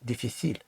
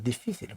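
First: The stress is on the final syllable. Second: The stress is on the second-to-last syllable. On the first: The speaker calls it wrong. "мало би бути наголошеним остання буква «і»" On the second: The speaker calls it right. "воно так правильно звучить"

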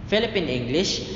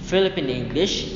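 Both takes have the same delivery.

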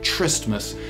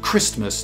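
First: The word starts without a hard k sound. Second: The word starts with a hard k sound. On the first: The speaker calls it wrong. "not Tristmas" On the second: The speaker calls it right. "we celebrate Christmas"

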